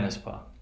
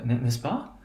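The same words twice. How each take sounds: First: The voice falls at the end. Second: The voice rises at the end. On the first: It is a rhetorical filler, not a real question. "I'm not asking a question. I'm sort of adding a rhetorical tag" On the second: It asks whether the statement is true. "Notice you have rising intonation"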